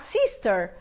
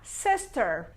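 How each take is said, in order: First: The first vowel is a tense 'ee' sound. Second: The first vowel is a closed e-like sound. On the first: The speaker calls it wrong. "Pegar o nosso I lá e colocar sister" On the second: The speaker calls it right. "Eu vou falar com um E com circunflexo"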